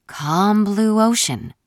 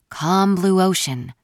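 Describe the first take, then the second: First: Even slower, drawn-out calm blue ocean; slower murmured mantra. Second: Slow, soothing murmured mantra; calm yourself down slowly. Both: A narrator's reading. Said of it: "I thought I heard her murmur".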